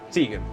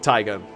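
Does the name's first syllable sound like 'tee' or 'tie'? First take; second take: tee; tie. First: The first syllable sounds like 'tee'. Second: The first syllable sounds like 'tie'. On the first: This is how the owner says the name. The speaker calls it right. "Tegan's the way I say it" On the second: Some people read the name this way. The speaker calls it wrong. "Not not like Tygon"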